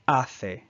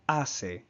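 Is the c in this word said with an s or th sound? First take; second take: th; s. First: The middle consonant is a th sound. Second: The middle consonant is an s sound. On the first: This is the pronunciation used in Spain. "in Spain, this same word would be pronounced hace, hace, where the C has a T H sound" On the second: This is the Latin American pronunciation. "in Latin America would be pronounced hace, hace, where the C has an S sound"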